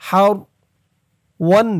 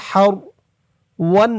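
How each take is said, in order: Both takes have the same delivery.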